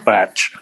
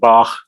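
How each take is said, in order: First: It ends in a tch sound. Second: It ends in a harsh throat ch sound. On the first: "or batch" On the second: "instead of Bach"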